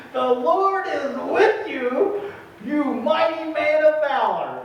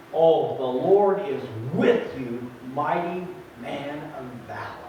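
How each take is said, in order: First: High, slow, ringing announcement; the angel hails Gideon, lifted and slow; grand angel proclamation. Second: Tender reassurance. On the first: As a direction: proclaim it like a heavenly herald. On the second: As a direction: say it gently to a frightened man. God repeats greeting to Gideon. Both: Acted.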